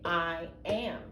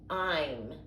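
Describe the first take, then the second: First: Two separate full words are said. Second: The words are run together as one syllable. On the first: The speaker calls it wrong. "you do not say I am" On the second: The speaker calls it right. "This says I'm"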